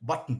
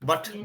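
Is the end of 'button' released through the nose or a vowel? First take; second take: nose; vowel. First: The t stops and releases through the nose. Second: A vowel is heard between the t and n. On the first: The speaker calls it right. "the right pronunciation" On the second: The speaker calls it wrong. "We all say"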